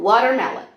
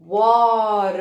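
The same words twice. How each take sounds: First: Said in the usual way. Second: Watermelon drawn out and split into its syllables. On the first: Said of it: "Então, por exemplo". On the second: Shown as a demonstration. Teacher showing kids how to count syllables, Watermelon beat by beat. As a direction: squeeze out each syllable of Watermelon. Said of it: "apertar na quantidade de sílabas".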